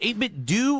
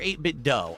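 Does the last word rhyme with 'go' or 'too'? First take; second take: too; go. First: The last word ends with an oo vowel. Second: The last word ends with an oh vowel. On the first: "Is it eight-bit do" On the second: "It's like dough, D O U G H"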